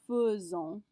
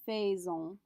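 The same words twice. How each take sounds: First: It is pronounced differently from the spelling. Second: It is pronounced as the spelling would suggest. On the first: The speaker calls it right. "This is an irregular pronunciation" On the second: The speaker calls it wrong. "not faisons"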